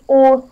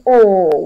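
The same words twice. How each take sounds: First: The vowel is said short. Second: The vowel is held longer. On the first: The speaker calls it wrong. "that's not the O sound" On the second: The speaker calls it right. "We are making it a little bit longer"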